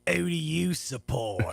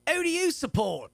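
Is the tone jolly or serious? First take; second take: serious; jolly. First: It is said in a serious tone. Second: It is said in a jolly tone.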